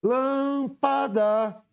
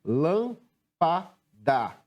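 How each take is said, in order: First: "Lâmpada" called out high, LÂM held long; chamando a palavra. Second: "Lâmpada" very slowly, a pause after each syllable; separando sílabas. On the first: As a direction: stretch the first syllable of "Lâmpada" on a high, sustained note. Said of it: "Qual é a sílaba que pronuncio com maior intensidade?". ("Lâmpada" com o LÂM alongado e agudo) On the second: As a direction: break "Lâmpada" into three separate beats. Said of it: "Como é que separamos a palavra lâmpada?". ("Lâmpada" pausado, sílaba por sílaba) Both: Shown as a demonstration.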